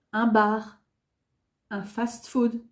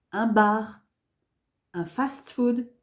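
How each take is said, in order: Both takes have the same delivery.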